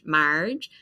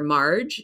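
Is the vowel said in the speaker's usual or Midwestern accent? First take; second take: Midwestern; usual. First: It is said with a flat Midwestern A. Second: It is said in the speaker's own accent.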